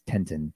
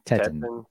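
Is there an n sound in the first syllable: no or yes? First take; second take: yes; no. First: The first syllable has an n sound. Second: The first syllable has no n sound. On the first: The speaker calls it wrong. "I definitely pronounced that wrong" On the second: The speaker calls it right. "Teton. T-E-T-O-N"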